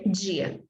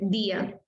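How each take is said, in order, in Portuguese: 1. O d é pronunciado como um dj suave. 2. O d é pronunciado como um d comum. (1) "mas eu vou dizer dia" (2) "isso significa que não está errado dizer dia"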